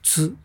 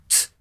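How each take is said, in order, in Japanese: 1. 唇を丸めて前に突き出します。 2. 唇は丸めず、歯の裏側で音を出します。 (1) "うっかりすると唇を丸くして前突き出してつ、つ、つって言うと" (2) "歯の裏側を鳴らすことです"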